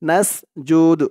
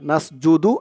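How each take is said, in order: First: The word ends on the consonant d. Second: The word ends with an added u vowel. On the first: The speaker calls it right. "থামলে নাসজুদ" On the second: The speaker calls it wrong. "নাসজুদু এরকম হবে না।"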